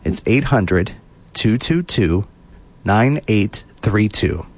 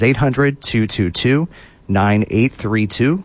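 First: The number is said slowly. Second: The number is said at normal speed.

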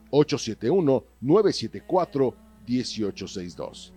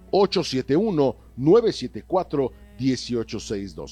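Both takes have the same delivery.

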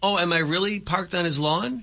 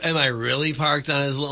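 First: It sounds like a sincere, genuine question. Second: It sounds like a sarcastic, mocking question.

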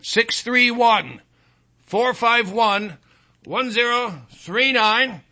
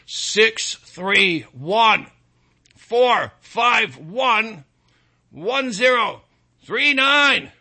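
First: The number is said at normal speed. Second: The number is said more slowly.

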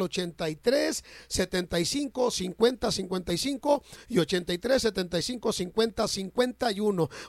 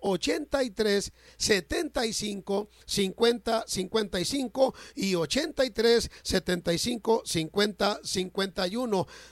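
First: The numbers are said at normal speed. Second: The numbers are said slowly.

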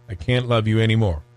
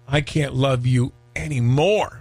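First: It sounds fed up, ending the relationship. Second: It sounds loving, full of overwhelming affection.

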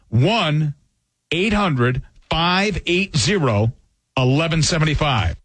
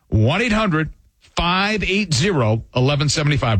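First: The number is read slowly. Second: The number is read at normal speed.

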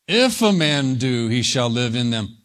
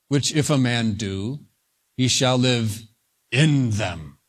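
First: The stress is on "if". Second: The stress is on "he shall live".

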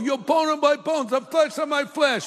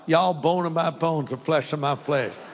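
First: It is said in an East Coast accent. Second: It is said in a Southern US accent.

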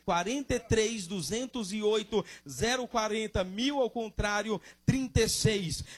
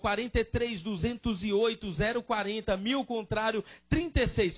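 First: It is said slowly. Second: It is said fast.

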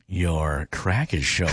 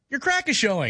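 First: It is said in a flirty tone. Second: It is said in a supportive tone.

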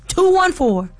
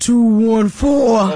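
First: It is said fast. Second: It is said slowly.

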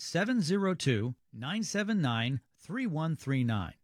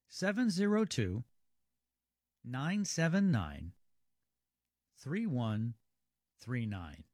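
First: The number is said at normal speed. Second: The number is said more slowly.

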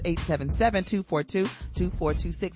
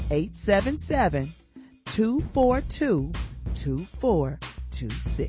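First: The number is said fast. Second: The number is said slowly.

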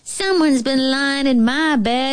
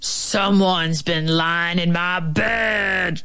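First: It is squeaked in a small, high voice. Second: It is growled in a big, deep voice.

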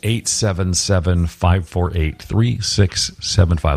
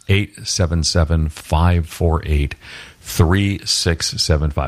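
First: The number is said at normal speed. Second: The number is said slowly and deliberately.

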